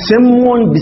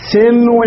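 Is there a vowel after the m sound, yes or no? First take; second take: no; yes. First: The m has no vowel after it. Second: The m is followed by a vowel. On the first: The speaker calls it wrong. "الميم ساكنة" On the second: The speaker calls it right. "أو متحركة"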